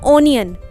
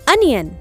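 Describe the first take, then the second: First: The first vowel is a long 'oh' sound. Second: The first vowel is a short 'uh' sound. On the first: The speaker calls it wrong. "पर that is wrong pronunciation" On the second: The speaker calls it right. "It's correct pronunciation is अनियन"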